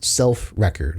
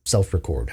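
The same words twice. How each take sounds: First: Record as REK-erd, first syllable stressed; noun stress on Record. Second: Record as ri-KORD, second syllable stressed; verb stress on Record. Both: Shown as a demonstration. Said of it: "however you want to pronounce it".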